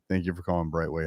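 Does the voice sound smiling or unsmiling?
unsmiling. It is said without a smile in the voice. The greeting sounds less sincere. The speaker calls it wrong. "Say it again without smiling"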